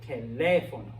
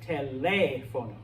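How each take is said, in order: First: The stress is on the second syllable. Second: The same.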